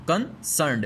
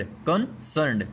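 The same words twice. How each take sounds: First: Said in the usual way. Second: कंसर्न्ड said slowly, syllable by syllable; slow spelled-out pronunciation. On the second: Shown as a demonstration. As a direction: draw out कंसर्न्ड carefully for the class. (कंसर्न्ड को धीरे-धीरे, एक-एक syllable में बोलें) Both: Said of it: "देखें केओएन, S E R N E D".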